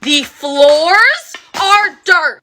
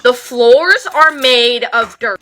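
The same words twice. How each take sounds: First: "floors" and "dirt" stretched very slowly, word by word, higher and louder; emphatic restatement. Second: Said in the usual way. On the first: Shown as a demonstration. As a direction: drag out "The floors are dirt." with weight on "floors".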